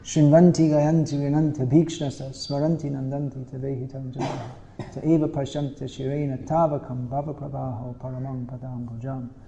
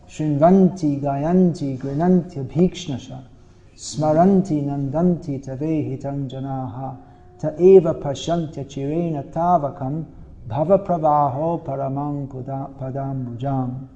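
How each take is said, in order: First: It is recited at normal speed. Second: It is recited a little more slowly.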